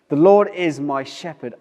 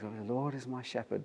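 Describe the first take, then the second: First: It is read with passion and strong feeling. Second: It is read plainly, without much feeling.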